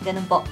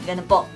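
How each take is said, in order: The two takes are said the same way.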